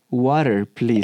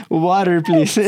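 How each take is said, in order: First: Imitating a small boy asking in English, slightly lower; a lightly voiced kid saying Water, please in Spanish-accented English; child's shy English. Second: Water, please repeated a bit louder, through laughter; amused repeat of the child's English. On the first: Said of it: "Y se voltea con el profesor y le dice". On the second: Retold or imitated. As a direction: replay the kid's line with glee.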